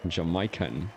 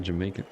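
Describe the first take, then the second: First: "Jamaican" said as "ja-MY-kan"; "Jamaican" with an "eye" vowel and open "kan"; odd pronunciation. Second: Said in the usual way. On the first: Shown as a demonstration. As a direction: say "Jamaican" with "my" in the middle. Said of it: "the fact you said Jamaican". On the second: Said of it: "It's the fact you said Jamaican".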